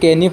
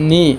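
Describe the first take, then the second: First: The word starts with a k sound before n. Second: The word starts with an n sound, no k. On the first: The speaker calls it wrong. "বহুতেই এইটো কেনি পঢ়ে, এইটো কেনি পঢ়িব নালাগে" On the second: The speaker calls it right. "এইটো সঠিক শুদ্ধ উচ্চাৰণ হ'ল নি"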